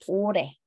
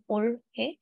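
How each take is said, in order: First: The two syllables run together, the h dropped. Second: The two syllables are said separately, the h kept. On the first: "pronounce natin yung dalawang syllables na magkadikit" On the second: "Pag isa-isay natin"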